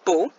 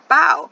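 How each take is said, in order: First: The vowel sounds like 'oh', as in 'go'. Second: The vowel sounds like 'ow', as in 'cow'. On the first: "It can say O" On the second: "or it can say ow"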